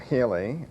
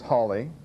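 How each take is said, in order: First: The first vowel sounds like 'hay'. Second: The first vowel sounds like 'haw'. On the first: "some people pronounce it as" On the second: "probably how Sir Edmund would have pronounced his surname"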